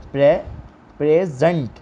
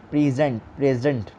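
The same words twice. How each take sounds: First: "present" with the first syllable "pray" hit; "present" with the weight on "pray"; stress on PRE. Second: "present" with "pray" pushed a little; "present" with the weight on "pray"; stress on PRE. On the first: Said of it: "Nasib syllable पर जोर दिए". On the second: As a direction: repeat "present", first syllable firm. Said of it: "pre पे आपने थोड़ा इस पे आवाज़ को थोड़ा जोर दें". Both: Shown as a demonstration.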